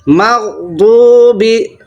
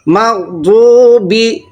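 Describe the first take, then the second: The two takes are said the same way.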